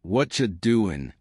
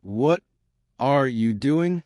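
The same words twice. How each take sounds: First: "What ya" blended into "whatcha"; "What ya doing" in one connected sound; one linked cluster. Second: "What", pause, "are you doing", higher; halting learner's delivery; broken and slow. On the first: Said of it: "It becomes one cluster". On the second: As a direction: break it up after "What". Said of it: "Broken, slow". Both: Shown as a demonstration.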